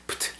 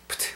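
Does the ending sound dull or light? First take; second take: dull; dull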